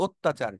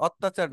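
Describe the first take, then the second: First: অত্যাচার with a closed "o" at the start; correct pronunciation. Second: অত্যাচার with an open "aw" at the start; mispronounced first vowel. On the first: Teacher giving students the corrected word, অত্যাচার with rounded "ot". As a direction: say অত্যাচার as "ot-tachar". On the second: Teacher warning students off a misreading, অত্যাচার with open first vowel. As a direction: say অত্যাচার as "awt-tachar". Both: Shown as a demonstration. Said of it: "অত্যাচার না কিন্তু".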